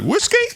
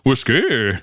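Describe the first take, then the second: First: The pitch rises at the end. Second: The pitch falls at the end. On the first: It asks a question. "that goes up at the end? ... it's like a question" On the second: It gives the answer.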